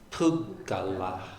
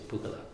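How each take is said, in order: First: Double g held, final vowel long. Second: Single g, final vowel shortened. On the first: The speaker calls it right. "ending with a long A" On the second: The speaker calls it wrong. "your tendency is to say pugala"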